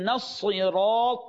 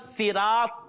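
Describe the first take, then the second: First: The t sound is emphatic and heavy. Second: The t sound is plain, not emphatic. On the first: The speaker calls it right. "This is the correct pronunciation" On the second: The speaker calls it wrong. "is incorrect"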